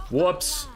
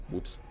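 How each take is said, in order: First: High, rising exclamation; mock-innocent oops. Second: Very soft little slip of a word; understated oops. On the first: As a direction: pitch it up as a showy admission. Performed repeat owning up to mistake. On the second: Real, not acted. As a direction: murmur it quietly to yourself. Small first reaction to own mistake.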